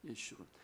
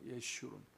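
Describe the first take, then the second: First: The name is said as ye-shu-run, with sh. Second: The same.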